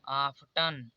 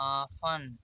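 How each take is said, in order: First: The t sound is clearly pronounced. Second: The t sound is left silent. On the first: The speaker calls it wrong. "इससे पहले नहीं जानते रहे होंगे तो आप लोग पढ़ रहे होंगे आफ्टन" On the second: The speaker calls it right. "यहाँ पर टी कॉमन हो जाएगा, तो इसे पढ़ा जाएगा आफन"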